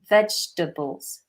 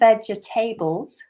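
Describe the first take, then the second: First: The 'table' part is reduced, not said in full. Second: The 'table' part is said in full, like 'table'. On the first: The speaker calls it right. "Notice how I pronounce that" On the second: The speaker calls it wrong. "I'm not saying vegetables, which is what some people do"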